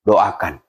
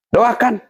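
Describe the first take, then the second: First: Said in the usual way. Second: Doakan said again high, as a firm call; emphatic repeat. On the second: Shown as a demonstration. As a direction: urge them: Doakan. (Doakan diulang tinggi dan tegas)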